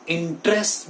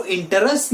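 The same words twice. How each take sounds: First: इंटरेस्ट in two syllables, in-trest; correct pronunciation. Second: इंटरेस्ट in three syllables, in-te-rest; wrong pronunciation. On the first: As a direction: drop the middle e in इंटरेस्ट. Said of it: "बोलेंगे". (इंटरेस्ट का सही उच्चारण, इन-ट्रेस्ट) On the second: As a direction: sound the middle e in इंटरेस्ट. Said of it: "नहीं बोलेंगे". (इंटरेस्ट का गलत उच्चारण, इन-टे-रेस्ट) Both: Shown as a demonstration.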